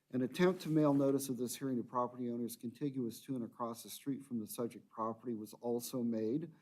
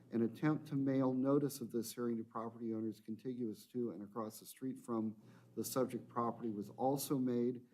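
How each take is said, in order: The two takes are said the same way.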